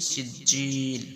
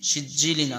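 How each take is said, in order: First: The word ends on l, its vowel stretched long. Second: The word ends with an -in sound. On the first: "এখানে আমরা পড়বো কি সিজিল" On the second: "সিজিলিন আছে"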